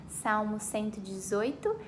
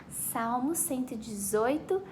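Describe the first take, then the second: No difference in how they are said.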